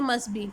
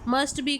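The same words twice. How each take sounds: First: The t sound is dropped. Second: The t sound is pronounced.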